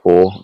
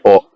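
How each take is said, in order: First: The name is said with an Australian pronunciation. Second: The name is said in its intended pronunciation. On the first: The speaker calls it wrong. "I say that wrong... I'm Australian" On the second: The speaker calls it right. "It's supposed to be or"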